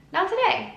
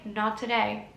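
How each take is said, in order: First: Much higher, bright singsong not today; breezy brush-off. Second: Said in the usual way. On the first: Pretend. Brushing off her inner critic with a high breezy not today. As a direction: chirp not today high and light like a cheerful goodbye.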